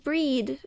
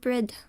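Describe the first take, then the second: First: The vowel is long, as in 'bead'. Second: The vowel is short, as in 'bid'. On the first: The speaker calls it right. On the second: The speaker calls it wrong.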